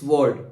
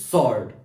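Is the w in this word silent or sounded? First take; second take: sounded; silent. First: The w sound is pronounced at the start. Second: The w sound is left silent. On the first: The speaker calls it wrong. "अगर हम w को इसमें प्रोनाउंसिएट करते तो it is sword" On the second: The speaker calls it right. "It is sword"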